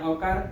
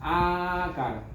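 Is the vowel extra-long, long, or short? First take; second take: short; extra-long. First: The vowel is held for one beat. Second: The vowel is held for three beats. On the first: "રસ્વ" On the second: "પ્લુત"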